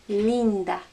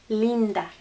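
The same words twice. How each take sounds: Both takes have the same delivery.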